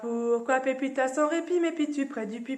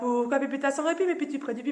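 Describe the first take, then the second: First: It is said at a normal speed. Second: It is said very fast.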